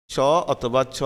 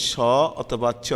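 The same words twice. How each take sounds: The two takes are said the same way.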